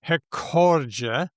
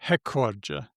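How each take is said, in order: First: The stress is on the second syllable. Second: The stress is on the first syllable. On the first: It follows the Portuguese stress rule. "many people would say that word" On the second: It follows the English stress pattern. "put the stress on the English way"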